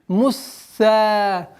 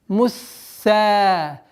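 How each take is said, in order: Both takes have the same delivery.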